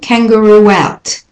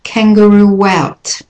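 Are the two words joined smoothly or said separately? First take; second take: joined; joined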